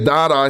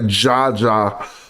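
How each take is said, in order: First: It begins with a D sound. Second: It begins with a J sound. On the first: Other people read it this way. The speaker calls it wrong. "They say Dada here" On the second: The speaker reads it this way. The speaker calls it right. "I would say Jaja"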